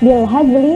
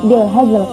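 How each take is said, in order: First: The word ends with a clear final vowel. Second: The word ends on a bare consonant. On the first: "lafaz bilhazli" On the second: "dibaca menjadi bilhazl"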